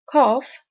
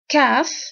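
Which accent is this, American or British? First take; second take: British; American. First: The vowel is the long broad 'ah' of a British accent. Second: The vowel is the short flat 'a' of an American accent. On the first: "British accent" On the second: "American accent"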